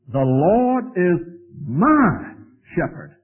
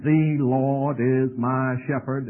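First: The word my is stressed. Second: It is said plainly, without stress on my.

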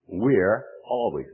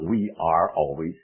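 First: We are is contracted to one syllable. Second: We are is said as two full words. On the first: The speaker calls it right. "We're always using contractions" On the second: The speaker calls it wrong. "not we are always"

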